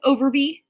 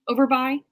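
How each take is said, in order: First: "Overby" with the last syllable as "bee"; questioning "Overby", ending in a long ee; name ending in bee. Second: "Overby" with the last syllable as "buy"; "Overby" ending to rhyme with "eye"; name ending in buy. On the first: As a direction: say "Overby" to rhyme with "free". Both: Shown as a demonstration. Tries two readings of a name.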